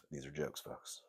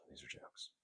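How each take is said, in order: First: Said in the usual way. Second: Whispered aside, no voice at all; mock whisper. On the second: Host whispering a reassurance to viewers. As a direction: breathe it like a secret to the audience.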